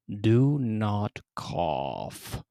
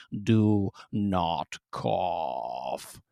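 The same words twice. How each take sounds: First: Stern mother. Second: Very slow, low, looming warning; menacing mother. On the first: Severe mother slowly warning her son not to cough. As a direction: draw each word out like a looming mother. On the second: Towering mother leaning down to threaten her son, slow and low. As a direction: lean down and drag out each word with menace. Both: Acted.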